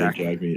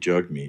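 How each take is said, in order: First: The first syllable sounds like 'jag'. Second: The first syllable sounds like 'jug'. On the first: The speaker calls it wrong. "we've been hearing people say Jagmeat" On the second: The speaker calls it right. "say jug, say meat"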